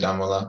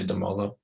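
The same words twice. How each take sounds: First: The name is said with an African accent. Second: The name is said with a plain English accent.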